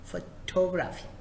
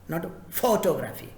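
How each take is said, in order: First: The stress is on the second syllable. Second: The stress is not on the second syllable. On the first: The speaker calls it right. "The second set of words" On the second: The speaker calls it wrong.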